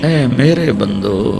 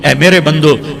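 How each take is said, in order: First: It is said in a warm, affectionate tone. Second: It is said in a plain, unaffectionate tone. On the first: The speaker calls it right. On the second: The speaker calls it wrong.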